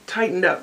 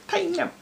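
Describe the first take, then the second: First: Said in the usual way. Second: Quick, tightened-up Tennessee twang; tightened Tennessee accent. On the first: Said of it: "it's a little more". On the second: Shown as a demonstration. Showing how Tennessee sounds, tightened Tennessee accent. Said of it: "it's, like, tightened up".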